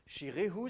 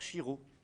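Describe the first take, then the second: First: The h sound is fully pronounced. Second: The ending contracts into a single o vowel.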